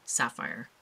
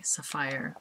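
First: Said in the usual way. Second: Sapphire in a Caribbean lilt; imitated Caribbean pronunciation of sapphire; Caribbean accent. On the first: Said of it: "rather than sapphire". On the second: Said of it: "this lovely accent, and that's how they say".

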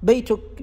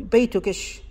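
First: Said in the usual way. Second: بيتكش with a sh added after the k; بيتكش with an added sh after the kaf; kashkasha ending. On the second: Shown as a demonstration. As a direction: tack a sh sound onto بيتكش. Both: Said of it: "ابن جني واصفها".

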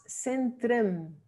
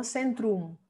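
First: Centrem with weak "trem" ending; correct Dutch version. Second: Centrum with "oo", "SEN-troom"; wrong Spanish version. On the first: Teacher modelling "centrem", reduced Dutch ending. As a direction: say "centrem" with a short E-like last vowel. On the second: Teacher rejecting "centrum" ending in Spanish "troom". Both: Shown as a demonstration. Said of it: "No centrum".

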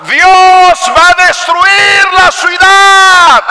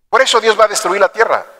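First: High, loud, slow doom proclamation; Jonah's warning. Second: Said in the usual way. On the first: Acted. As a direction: shout the prophecy of destruction. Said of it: "el mensaje de Jonás era". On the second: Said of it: "plain statement of doom".

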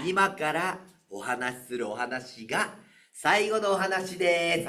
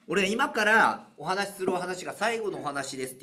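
First: Slow, drawn-out, overly solemn; milk each word to cue the crowd's groan; exaggerated announcement. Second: Said in the usual way. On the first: Shown as a demonstration. (わざとらしく、ゆっくりと告げる) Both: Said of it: "俺ものすごいわざとらしく言うからね".

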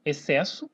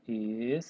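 First: Said in the usual way. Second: "excesso" sounded out piece by piece, silent X; syllable by syllable. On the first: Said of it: "Por exemplo". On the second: Shown as a demonstration. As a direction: stretch each syllable of "excesso" separately, low. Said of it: "como que separa?".

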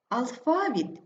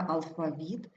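First: АлФАвіт, middle syllable stressed; stress on second syllable. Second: АлфаВІТ, ending stressed; stress on last syllable. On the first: Teacher showing double stress, stress on ФА. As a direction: hit ФА in алфавіт. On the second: Teacher showing double stress, stress on ВІТ. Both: Shown as a demonstration. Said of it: "слова із подвійним наголосом".

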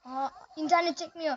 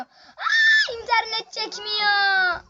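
First: Said in the usual way. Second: High, loud and slow, dragging out the words; frustrated shout. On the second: Real, not acted. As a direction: yell it at the lagging game. Lag in the match, shouted repeat. (bağırarak, uzatarak isyan)

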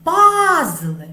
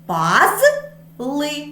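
First: Пазли with a high, loud first syllable ПАЗ; the first syllable of Пазли hit loud; stress on first syllable. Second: Пазли said as паз-ли, two clear syllables; syllables spelled out; split into syllables. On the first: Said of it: "Який склад буде наголошеним?". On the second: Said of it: "Поділимо на склади". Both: Shown as a demonstration.

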